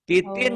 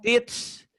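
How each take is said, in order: First: The word is read in full with its ending. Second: The word is cut short with its ending dropped. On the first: The reading continues without stopping. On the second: The reading stops at this word.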